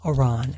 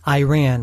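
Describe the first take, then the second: First: The first syllable does not sound like 'eye'. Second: The first syllable sounds like the word 'eye'. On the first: The speaker calls it right. "It's Iran" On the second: The speaker calls it wrong. "as I often call it"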